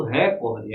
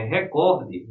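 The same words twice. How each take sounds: First: "recorde" stressed on the first syllable, RÉ-corde; "recorde" misstressed on RE; wrong stress, RÉ-corde. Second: "recorde" as re-CÓR-de, middle syllable stressed; stress on COR. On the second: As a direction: put the weight on COR in "recorde". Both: Shown as a demonstration. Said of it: "é recorde".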